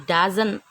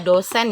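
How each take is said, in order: First: It sounds like the English word 'doesn't'. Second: It sounds like the Indonesian word 'dosen'. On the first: The speaker calls it right. "tapi apa? Doesn't like" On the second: The speaker calls it wrong. "Jangan dibaca dosen ya"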